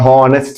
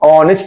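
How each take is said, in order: First: The word begins with an audible h sound. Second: The word begins with a vowel, no h. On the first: The speaker calls it wrong. "ഹോണസ്റ്റ് എന്നല്ല" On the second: The speaker calls it right. "ഓണസ്റ്റ് എന്നാണ് പറയേണ്ടത്"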